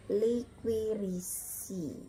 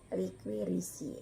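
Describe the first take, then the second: First: "liquirisi" in long separated syllables, li-kwi-ri-si; TIAE as SIE demo. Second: "Liquirisi" joined up, ending in -sie; TIAE as SIE. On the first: Teacher sounding out the example, "liquirisi" syllable by syllable. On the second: Teacher repeating the example, "Liquirisi" in a connected reading. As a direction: say "Liquirisi" as one word with soft s. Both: Shown as a demonstration. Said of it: "tiae dibaca sie".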